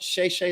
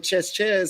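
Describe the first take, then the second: First: It sounds like 'shay', with no final consonant. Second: It sounds like 'chess', with a final s. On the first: The speaker calls it right. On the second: The speaker calls it wrong.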